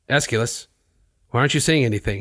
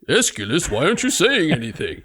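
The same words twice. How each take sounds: First: It is said in his normal voice. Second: It is said in a put-on character voice.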